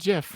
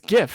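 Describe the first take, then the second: First: The word begins with a J sound. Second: The word begins with a hard G sound. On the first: The speaker calls it wrong. "not GIF" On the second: The speaker calls it right. "It doesn't have a J, it's a G"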